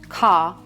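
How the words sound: The final R is silent. "We are picky"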